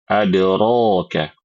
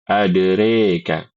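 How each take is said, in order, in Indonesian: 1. Vokal setelah r adalah a terbuka. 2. Vokal setelah r condong ke e. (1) "Sedangkan Imam Hafs membaca dengan al-fath" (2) "membaca imalah pada kata adereka"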